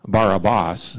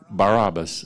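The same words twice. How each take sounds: First: Every A vowel is an open 'ah' sound. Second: The A vowels have ordinary English sounds.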